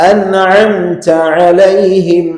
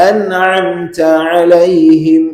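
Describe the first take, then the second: Both takes have the same delivery.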